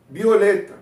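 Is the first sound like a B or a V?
B. The first sound is like a B.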